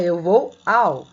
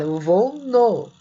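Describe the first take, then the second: First: Slow and clear, leaning on "ao"; correct form, slow. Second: Slow, leaning on "no" as people really say it; everyday form, slow. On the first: Teacher to students, showing the correct form slowly. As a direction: spell out "Eu vou ao" as the correct model. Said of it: "o certo é". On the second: Teacher to students, showing the colloquial form slowly. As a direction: say "Eu vou no" like everyday speech. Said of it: "Mas a gente fala". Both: Shown as a demonstration.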